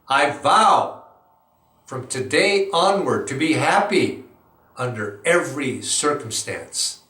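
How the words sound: It is said forcefully with energy.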